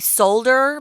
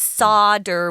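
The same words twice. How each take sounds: First: The word is said with an L sound. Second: The word is said without an L sound. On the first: The speaker calls it wrong. "It looks like you would say solder" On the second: The speaker calls it right. "with no L sound"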